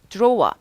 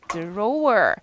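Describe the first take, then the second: First: It is said in a British accent. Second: It is said in an American accent.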